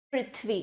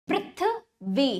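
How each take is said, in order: First: Said in the usual way. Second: Prithvi slowly as पृथ्... वी; broken into syllables. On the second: Shown as a demonstration. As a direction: pause before वी in पृथ्वी. (पृथ्वी को धीरे से तोड़कर: पृथ्... वी) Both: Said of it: "तोड़कर पहले".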